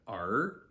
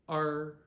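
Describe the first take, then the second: First: The pitch rises through the syllable. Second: The pitch stays high and level. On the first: "see this said with a second tone" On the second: "we're staying with first tone"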